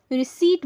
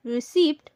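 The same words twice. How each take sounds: First: "रिसीट" said ri-SEET; silent p. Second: "रिसीप्ट" with p sounded, ri-SEEPT; wrong pronunciation. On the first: Teacher explaining the silent p, "रिसीट" as ri-SEET. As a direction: leave out any p in "रिसीट". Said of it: "पी खामोश होता है". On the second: Teacher warning of the mistake, "रिसीप्ट" as ri-SEEPT. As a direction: let the p be heard in "रिसीप्ट". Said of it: "तो ये गलत हो जाएगा". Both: Shown as a demonstration.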